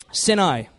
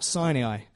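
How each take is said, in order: First: Sinai said in two syllables, SIN-eye; short I at the start of Sinai, as SIN-eye; correct Sinai pronunciation. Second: Sinai said in three syllables, SIGH-nee-eye; mispronounced Sinai. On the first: Shown as a demonstration. Teacher correcting the slip for the church, Sinai pronounced SIN-eye. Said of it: "what it actually is". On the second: Real, not acted. Naming the camp in Numbers, Sinai mispronounced as SIGH-nee-eye. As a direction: say Sinai with a long first I and an extra "ee". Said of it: "when I say it wrong".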